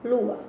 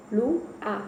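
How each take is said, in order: First: Said in the usual way. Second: "lu-a" said as two separate syllables, lu then a; split into syllables. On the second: Shown as a demonstration. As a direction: break "lu-a" into lu and a with a small gap. ("lu-a" separado em duas sílabas, lu e a)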